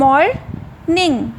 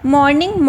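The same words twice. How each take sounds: First: "morning" split as mor, pause, ning; syllable by syllable. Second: Said in the usual way. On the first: Shown as a demonstration. Teacher showing students syllables, "morning" broken in two. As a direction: say "morning" in two separate beats. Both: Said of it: "two syllables".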